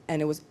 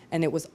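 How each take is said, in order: Both takes have the same delivery.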